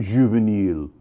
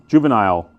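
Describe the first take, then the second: First: Juvenile said French-style as zhoo-veh-NEEL; French-style pronunciation. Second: Juvenile said the American way, JOO-vuh-nile, ending like "nile"; American pronunciation. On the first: Wine seller contrasts the Torbreck name, Juvenile said as zhoo-veh-NEEL. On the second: Wine seller gives the American reading of Juvenile, JOO-vuh-nile. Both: Shown as a demonstration. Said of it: "we're in America".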